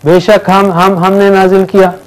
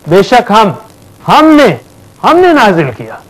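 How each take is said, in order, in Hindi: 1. शब्द बिना अतिरिक्त ज़ोर के सपाट तरीके से बोले गए हैं। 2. दोहराए गए शब्द बहुत ज़ोर के साथ बोले गए हैं। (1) "अब आप ऐसे सुनेंगे तो बोलेंगे कितनी बार हम है?" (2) "फोर्स जो है स्टाइल से बदल जाता है।"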